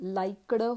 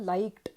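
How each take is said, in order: First: The ending is a full extra syllable. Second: The ending is a soft, short d sound. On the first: The speaker calls it wrong. "लाईकडं होत नाही बरं का" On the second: The speaker calls it right. "डचा उच्चार हळूवार किंवा सावकाश होतो"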